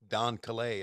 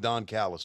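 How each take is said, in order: First: The name is pronounced like Calais. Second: The name is pronounced like Callis. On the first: This is the mistaken pronunciation used at first. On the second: This is the name's usual pronunciation.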